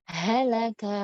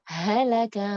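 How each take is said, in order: The two takes are said the same way.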